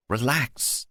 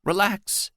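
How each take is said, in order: First: Squeaked. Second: High squeaky voice cracking upward. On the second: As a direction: squeak it out, nervous and rising. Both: Acted. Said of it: "Tony squeaked".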